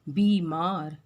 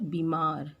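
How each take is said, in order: First: The first vowel is long. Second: The first vowel is short. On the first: The speaker calls it right. "ब में बड़ी की मात्रा होती है" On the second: The speaker calls it wrong. "ये भी गलत है"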